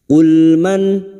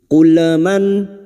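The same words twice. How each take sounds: First: The l sound is held smoothly without bouncing. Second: The l sound bounces with a small echo. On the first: The speaker calls it right. "Lam sukun cukup masuk" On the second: The speaker calls it wrong. "jangan dibaca seperti ini"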